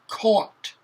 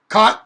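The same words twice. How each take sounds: First: The vowel is a rounded aw sound. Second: The vowel sounds like the one in cot. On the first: "Notice I really accentuated that" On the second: "sounds like C O T"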